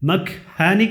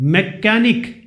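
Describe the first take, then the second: First: The word has an h sound. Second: The word has no h sound. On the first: The speaker calls it wrong. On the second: The speaker calls it right.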